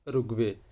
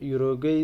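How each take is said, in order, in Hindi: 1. यह शब्द 'oo' ध्वनि से शुरू होता है। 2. यह शब्द 'yoo' ध्वनि से शुरू होता है। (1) "exact pronunciation is उरुग्वे" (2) "यूरोग्वे is wrong pronunciation"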